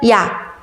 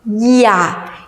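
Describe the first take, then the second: First: The syllable is said quickly as one glide. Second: The syllable is drawn out slowly, vowel by vowel. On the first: "이 모음에서 아 모음으로 빠르게 이동하죠?" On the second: "야를 슬로우 모션으로 발음한다고 생각해 볼까요?"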